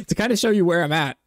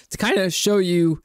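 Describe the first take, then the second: First: Said in the usual way. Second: Voice crack. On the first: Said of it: "crazy voice crack". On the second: Real, not acted. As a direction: voice cracking on the rise. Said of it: "whoa, crazy voice crack".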